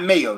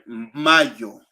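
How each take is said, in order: First: It is said with an English pronunciation. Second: It is said with a Spanish pronunciation. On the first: It names the sandwich spread. The speaker calls it wrong. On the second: It names the month of May. The speaker calls it right.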